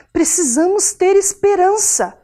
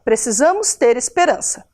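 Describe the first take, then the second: First: "Precisamos ter esperança" said slowly with rising feeling, stress on "ter"; with emotion. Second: Said in the usual way. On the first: Shown as a demonstration. Teacher reading the exclamation, emotional. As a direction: say "ter" with heart, slow and emphatic. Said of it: "afirmando com emoção". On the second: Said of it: "Só afirmei".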